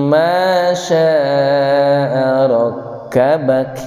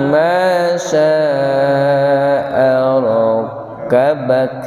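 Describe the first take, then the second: The two takes are said the same way.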